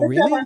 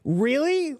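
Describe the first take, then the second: First: It sounds simple and plain. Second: It sounds disbelieving and incredulous. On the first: The listener simply acknowledges the news. "and one is like, oh, really? You know, just like simple" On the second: The listener can't believe what was said. "One way is more like, really? Like, I can't believe you said that"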